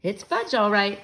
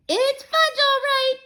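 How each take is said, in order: First: Said in the usual way. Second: Put-on high, loud little-kid echo; toddler echo. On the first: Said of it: "I said". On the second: Toddler Fudge repeating his brother's words, high echo. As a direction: parrot it like a small child copying his brother. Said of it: "my brother repeated".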